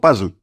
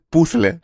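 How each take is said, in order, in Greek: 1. Η λέξη λέγεται με τον αγγλικό ήχο z. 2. Η λέξη λέγεται με τον ήχο th.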